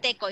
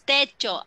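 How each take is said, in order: First: The middle consonant is a k sound. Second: The middle consonant is a ch sound. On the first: The speaker calls it wrong. "But it's not teko" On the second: The speaker calls it right. "It's techo"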